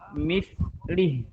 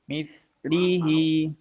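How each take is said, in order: First: The word ends on a consonant, no vowel. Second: The word ends with a lengthened final vowel. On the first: The reader stops on this word. "kalau diwakofin jadi mislih" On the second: The reader continues to the next word. "jadi dua harokat"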